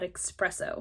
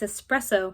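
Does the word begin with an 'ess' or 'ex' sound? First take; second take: ex; ess. First: The word begins with an 'ex' sound. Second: The word begins with an 'ess' sound. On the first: The speaker calls it wrong. "not espresso. There's no X in the word" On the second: The speaker calls it right. "it's espresso"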